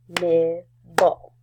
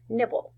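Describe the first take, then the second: First: "Nibble" as nib, pause, ble, both beats loud; split into syllables. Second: Said in the usual way. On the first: Shown as a demonstration. Teacher clapping with first graders, "Nibble" split as nib... ble. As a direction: clap out "Nibble" in two separate pieces. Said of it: "let's clap out the syllables". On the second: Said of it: "the word is nibble".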